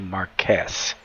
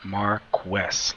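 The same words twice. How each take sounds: First: The 'qu' is said as a plain 'k'. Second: The 'qu' is said as 'kw', like quick. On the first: This is how other people say the name. The speaker calls it wrong. "Everybody calls me Marquez or Marquis" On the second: This is how the name's owner says it. The speaker calls it right. "Like quick, queen"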